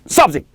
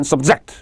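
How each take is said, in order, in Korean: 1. 강세는 첫 번째 음절에 있어요. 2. 강세는 두 번째 음절에 있어요. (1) "명사일 때는 subject" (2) "복종시키다 종속시키다 는 subject"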